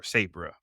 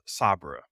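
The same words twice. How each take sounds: First: "Sabra" with a long A, as in say; alternative pronunciation. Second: "Sabra" with an ah in the first syllable; alternative pronunciation. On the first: Host unsure of a character's name, offering "Sabra" as SAY-bruh. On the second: Host unsure of a character's name, trying "Sabra" as SAH-bruh. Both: Shown as a demonstration. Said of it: "I'm not sure how it's pronounced".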